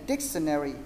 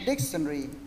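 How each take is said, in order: First: It is said with four syllables, American style. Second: It is said with three syllables, British style. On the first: "Còn tiếng Mỹ là" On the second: "nếu mà đọc theo tiếng Anh là"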